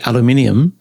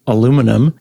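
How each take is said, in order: First: "aluminium" the British way, al-u-MIN-i-um. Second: "aluminum" the American way, a-LOO-mi-num. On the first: Speaker imitates how listener says it, British "aluminium". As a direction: say "aluminium" in five syllables, stress on MIN. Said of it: "and you say aluminium". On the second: Speaker contrasts own word with listener's, American "aluminum". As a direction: say "aluminum" in four syllables, stress on LOO. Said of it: "when I say aluminum". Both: Shown as a demonstration.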